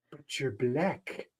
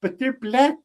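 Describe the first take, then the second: First: Put-on slow, soft South African accent. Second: Higher-pitched imitation of a tiny Italian guy; Joe Pesci. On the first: Retelling a consulate scene in a film, South African accent. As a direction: imitate a South African official, drawn out and quiet. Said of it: "It'll be in the South African accent". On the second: Co-host retelling a film's repeated line, high mimicry. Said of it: "hearing this tiny Italian guy being like".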